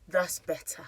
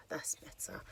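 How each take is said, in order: First: Said in the usual way. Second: Soft unvoiced "that's better"; a private whispered aside; whispered to herself. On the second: Real, not acted. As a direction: breathe the words out without voice. Repeats phrase to herself.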